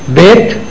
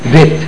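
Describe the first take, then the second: First: The first sound is a hard stop. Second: The first sound is a soft fricative.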